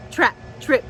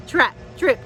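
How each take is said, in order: Both takes have the same delivery.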